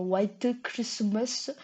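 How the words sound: It is said with a strong Korean accent.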